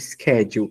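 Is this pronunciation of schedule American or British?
American. It is said with a non-British pronunciation.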